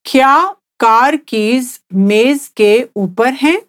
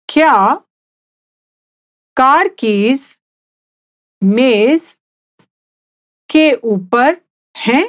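First: Said in the usual way. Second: Slow, each word set apart with pauses; slowly, word by word. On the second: Shown as a demonstration. Teacher repeating for the listener to copy, slow and word by word. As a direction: spell it out slowly for a learner. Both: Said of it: "I'll say it again slowly".

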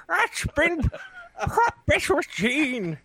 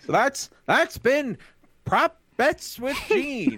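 First: Lightly mimicked gambler drawl, high and slow. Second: Smooth sly gambler drawl, high and slow. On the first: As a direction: copy the sly riverboat gambler announce. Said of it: "riverboat music". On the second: Acted. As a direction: announce it like a riverboat gambler. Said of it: "That's my gambler voice".

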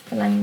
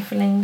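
First: Forlange with a clear open a, as in "lange"; corrected word. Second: Forlænge read with an e sound, æ as in "længe"; misread word. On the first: Reader corrects herself to Forlange, careful and clear. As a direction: fix it to Forlange, open a vowel. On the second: Reader stumbles on the word, says forlænge. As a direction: slip into forlænge, the wrong vowel. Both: Shown as a demonstration. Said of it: "Forlange dem tilbage".

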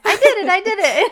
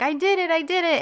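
First: Much higher and louder, squealing with delight; girl doing her happy dance, squealing with glee; happy dance cheer. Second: Put-on quick, high, giddy little girl's cheer; girl cheering herself after tying her shoes, excited. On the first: Retold or imitated. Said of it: "This is my happy dance". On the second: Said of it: "she gets all excited".

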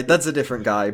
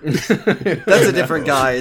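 First: Said in the usual way. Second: Slow, laughing through it. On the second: Real, not acted. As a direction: giggle out the words.

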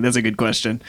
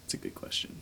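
First: Said in the usual way. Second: Much softer, a voiceless murmur; muttered in character. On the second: Shown as a demonstration. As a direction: say it under your breath as the dragon. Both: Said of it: "this is D M talking".

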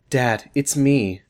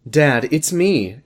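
First: Slow reread of "Dad, it's me" as a full stop; second try. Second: Slow, flat misread of "Dad, it's me"; wrong read. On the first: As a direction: say "Dad, it's me." slowly, closing the quote. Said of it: "Is that okay?". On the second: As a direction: drag out "Dad, it's me" slowly. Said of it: "Can you read that correctly?". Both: Acted.

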